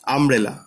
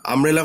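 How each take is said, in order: First: Said in the usual way. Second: umbrella broken into three separate syllables, আম, ব্রে, লা; teacher counting out the syllables of umbrella; split into syllables. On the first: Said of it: "umbrella তিনটে syllable রয়েছে". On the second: Shown as a demonstration. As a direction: say umbrella piece by piece with small gaps. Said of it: "তিনটে syllable রয়েছে".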